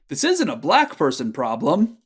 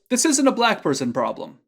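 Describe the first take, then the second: First: The sentence ends with a continuing, unfinished-sounding tune. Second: The sentence ends with a plain, final-sounding tune. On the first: "Then with the te form" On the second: "with without that kte"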